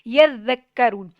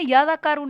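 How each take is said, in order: First: The 'z' sound is held long and doubled. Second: The 'z' sound is short and single. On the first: The speaker calls it right. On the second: The speaker calls it wrong.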